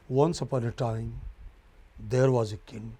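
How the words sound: There is a pause after 'time'.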